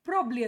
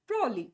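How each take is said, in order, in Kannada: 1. ಒಂದು ಮಧ್ಯದ ಉಚ್ಚಾರಾಂಶವನ್ನು ಬಿಡಲಾಗಿದೆ, "probly" ಎಂದು ಕೇಳಿಸುತ್ತದೆ. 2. ಮಧ್ಯದ ಉಚ್ಚಾರಾಂಶಗಳನ್ನು ಬಿಡಲಾಗಿದೆ, "prolly" ಎಂದು ಕೇಳಿಸುತ್ತದೆ. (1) "ಪ್ರಾಬ್ಲಿ ಪ್ರಾಬ್ಲಿ ಅಂತಾರೆ. ಇವೆರಡು ತಪ್ಪು" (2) "ಪ್ರೋಲಿ ಪ್ರೋಲಿ ಅದನ್ನು ಸ್ಟೈಲಾಗಿ ಹೇಳಕ್ಕೆ ಹೋಗ್ತಾರೆ"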